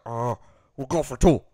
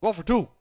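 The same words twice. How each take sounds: First: Clueless coach. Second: Said in the usual way. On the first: Retold or imitated. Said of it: "And he's like".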